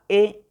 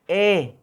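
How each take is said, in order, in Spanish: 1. El sonido de la vocal es corto y simple. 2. El sonido de la vocal se mantiene más tiempo. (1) "Las simples es únicamente como las que conocemos" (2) "La prolongada sería E"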